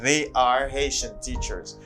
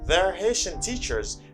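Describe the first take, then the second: First: The words they are are said separately. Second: The words they are merge into one syllable. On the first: "instead of saying they are Haitian teachers" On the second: "They're Haitian teachers instead of saying"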